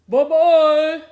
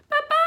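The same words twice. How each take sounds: First: It is said in a big, gruff voice. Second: It is said in a high, squeaky voice.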